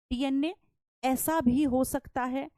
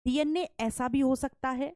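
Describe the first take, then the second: First: Slow, with stress on भी and a rising end; slow emphasis on भी. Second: Said in the usual way. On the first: Shown as a demonstration. Teacher spelling it out for her class, slow with stress on भी. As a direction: stretch out ऐसा भी हो सकता है and lean on भी. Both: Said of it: "अब ध्यान से सुनना".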